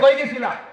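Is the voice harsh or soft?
harsh. It is said in a harsh, scolding voice. A mother scolds a child who came home late. "এইভাবে জিগাই কিনা?"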